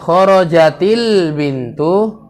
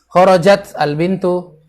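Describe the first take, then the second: First: The t links to the article with an i-vowel. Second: The t is bare, with no vowel after it. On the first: The speaker calls it right. "bacanya kharajatil bintu" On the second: The speaker calls it wrong. "boleh antum sukun dulu"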